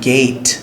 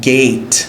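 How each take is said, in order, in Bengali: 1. শব্দটির উচ্চারণ ইংরেজি ধাঁচের। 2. শব্দটির উচ্চারণ ইংরেজি ধাঁচের।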